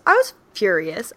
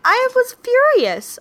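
First: Said in the usual way. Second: Emphatic. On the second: Real, not acted. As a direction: stress the fury.

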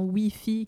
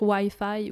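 First: Wi-Fi said "wee-fee"; French pronunciation. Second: Wi-Fi à l'anglaise, « ouaille-faille »; prononciation anglaise. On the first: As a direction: say Wi-Fi the French way, as "oui-fi". (Wi-Fi prononcé « oui-fi », à la française) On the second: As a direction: say Wi-Fi the English way, "why-fye". (Wi-Fi prononcé « ouaille-faille », comme en anglais) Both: Shown as a demonstration. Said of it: "on dit pas Wi-Fi".

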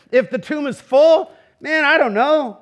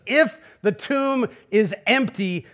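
First: Higher and louder, a flippant shrug; joking shrug. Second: Slow, serious, weighing every word; slow and weighty. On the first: Preacher jokes about the bleak alternative, loud and flippant. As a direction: toss it off with a jokey shrug. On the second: Preacher sets the hopeful case for the congregation, slow and grave. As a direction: lay each word down slowly and gravely. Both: Shown as a demonstration. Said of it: "contrasting empty and full tomb".

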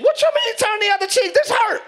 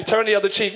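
First: High, loud mock outrage; indignant self voice. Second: Low, firm instruction as God; God's voice. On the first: Believer objecting to God after a slap, high indignant mock protest. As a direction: protest at a raised, affronted pitch. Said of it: "your voice is like". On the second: Acted. Preacher voicing God's answer to a slapped believer, low and firm. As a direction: drop the pitch and command evenly. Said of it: "God's voice is usually".

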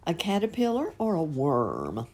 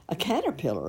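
First: Caterpillar rising as a question; "caterpillar" asked with a rising tune; asking question. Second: Caterpillar falling, settled; "caterpillar" firm and falling; answering. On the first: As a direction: lift "caterpillar" like a question to children. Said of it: "A caterpillar, of course". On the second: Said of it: "of course". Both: Shown as a demonstration.

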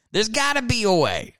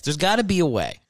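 First: Higher mock-desperate. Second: Said in the usual way. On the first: Shown as a demonstration. Repeats musing on losing listeners.

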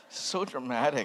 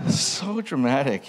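First: Said through a giggle; laughing. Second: "So dramatic" slower and louder, SO stretched; emphatic mock. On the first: Pastor mocking his old journal, still laughing. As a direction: chuckle the words out. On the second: Pastor repeating his verdict on his journal, slow, loud mock. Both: Real, not acted.

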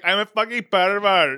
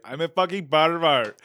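First: Put-on louder, higher Nepalese accent; Subas impression. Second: Hammed-up Nepalese accent, loud; mock Nepalese accent blurted out; loud Nepalese-accent punchline; Subas impression. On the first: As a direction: belt it in a mock Nepalese accent. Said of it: "whenever I think of Subas's accent". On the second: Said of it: "I was doing it on the podcast".

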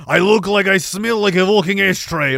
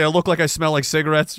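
First: Zelensky impression. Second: Said in the usual way. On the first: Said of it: "Remember that Zelensky video? Where he was". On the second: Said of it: "He'd say".

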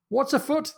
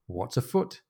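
First: High-pitched, incredulous echo of a question; Jack's indignant echo. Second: Soft, innocent query; playing innocent. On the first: Acted. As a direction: throw the question back in disbelief. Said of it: "This is Jack". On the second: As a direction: ask it quietly, as if you know nothing. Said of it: "[name]'s playing the, the innocent".

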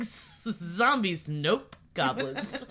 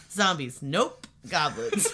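First: Imitating her. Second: Imitating her again. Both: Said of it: "just the way you said it".

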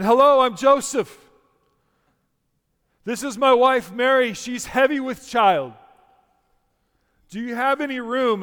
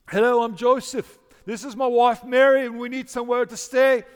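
First: Put-on loud, high, over-projected stage recital without British accent; Joseph in a pageant. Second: Put-on loud, high-pitched stagey British accent. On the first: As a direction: announce each line to the back row. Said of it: "Joseph says again". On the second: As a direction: project a hammy British accent that drifts towards Irish. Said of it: "in a British voice, English accent".

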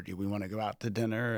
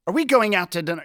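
First: Said in the usual way. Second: Much higher and louder, pointed and accusing. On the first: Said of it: "very, very innocuous". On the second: Shown as a demonstration. Spouse asking about dinner, loud and high accusing tone. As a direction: throw the question like an accusation. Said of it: "it's a very different kind of tone".

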